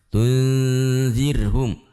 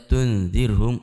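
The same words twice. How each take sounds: First: The n sound is held long and nasalized. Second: The n sound is cut short without holding. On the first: The speaker calls it right. "harus kita tahan dan kita samarkan nunnya" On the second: The speaker calls it wrong. "ketika kita tidak menahannya"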